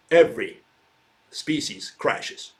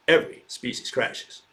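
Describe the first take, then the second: First: Every punched, then species crashes slow and hushed; dramatic emphasis. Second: Said in the usual way. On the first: Shown as a demonstration. Lecturer driving home extinction to students, slow hushed emphasis. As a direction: let "every species crashes" land slowly, dropping to a hush on "species crashes".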